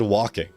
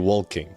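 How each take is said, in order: First: The word is said without an L sound. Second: The word is said with an L sound. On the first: The speaker calls it right. "I don't pronounce the L in that" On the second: The speaker calls it wrong. "If I pronounce the L, it'll be walking"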